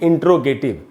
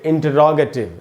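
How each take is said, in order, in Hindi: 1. t और r बिना किसी स्वर के आपस में जुड़ जाते हैं। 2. t और r के बीच एक पूरा स्वर आता है। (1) "न कि इंट्रोगेटिव" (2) "इसको हम पढ़ेंगे इंटरोगेटिव"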